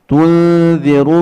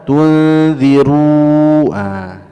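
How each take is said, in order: First: The last vowel is short. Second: The last vowel is drawn out. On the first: The speaker calls it right. "di sini tidak ada mad" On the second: The speaker calls it wrong. "tidak boleh dibaca"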